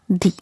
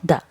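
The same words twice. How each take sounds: First: The vowel is long, like thee. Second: The vowel is short, like thuh. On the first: The speaker calls it right. "we'll pronounce this the as the" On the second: The speaker calls it wrong. "not the"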